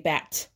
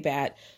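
First: The final T is hard and crisp. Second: The final T is soft, not crisp.

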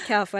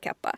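First: The middle consonant is an f sound. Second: The middle consonant is a p sound. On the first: "Är det kaffa eller kappa?" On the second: "Är det kaffa eller kappa?"

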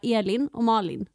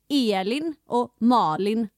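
First: The vowels are short and plain. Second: The vowels are drawn out, dialect style.

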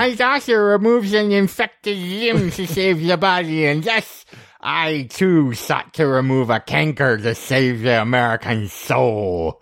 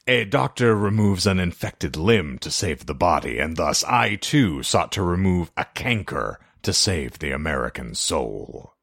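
First: It is said in a high-pitched voice. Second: It is said in an ominous voice.

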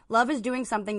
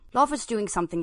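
First: It is read in the speaker's usual accent. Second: It is read in a put-on British accent.

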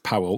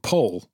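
First: The name is said with two syllables, 'Powell'. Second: The name is said as one syllable, 'Paul'. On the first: The speaker calls it right. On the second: The speaker calls it wrong.

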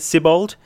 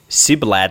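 First: The name ends with the sounds 'bald'. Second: The name ends with the sounds 'blad'. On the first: "that's what I'm going with" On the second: "I think I swapped the L and the A around"

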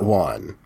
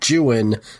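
First: Juan is said in one syllable, not rhyming. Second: Juan is said in two syllables, rhyming with 'new one'. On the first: This is the usual modern pronunciation of the name. The speaker calls it wrong. "not Juan" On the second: This is how the poet pronounced the name. The speaker calls it right. "he rhymes everything with Juan"

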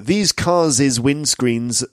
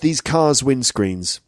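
First: The plural possessive has an extra 'iz' syllable. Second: The plural possessive has no extra syllable. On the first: The speaker calls it wrong. "it's not cars's" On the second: The speaker calls it right. "No, it's just"

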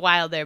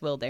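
First: The first vowel sounds like in 'wild'. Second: The first vowel sounds like in 'will'. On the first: The speaker calls it wrong. "I saw Wild first" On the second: The speaker calls it right. "but I think it's Wilder"

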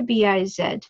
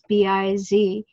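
First: The last letter is said as zed. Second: The last letter is said as zee.

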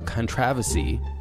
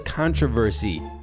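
First: It is said in a British way. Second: It is said in a non-British way.

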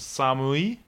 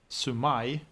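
First: The first vowel is a, the second u. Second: The first vowel is u, the second a. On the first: The speaker calls it right. "Det heter Samui" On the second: The speaker calls it wrong. "mitt spån, sa Sumai. Det är fel"

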